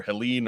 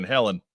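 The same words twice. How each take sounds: First: "Helene" with a long ee in the second syllable; Helene pronunciation. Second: "Helen" with the stress on the first syllable; Helen pronunciation. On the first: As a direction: say "Helene" as hel-EEN. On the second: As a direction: say "Helen" as HEL-en. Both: Shown as a demonstration. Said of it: "I don't know how we're pronouncing that".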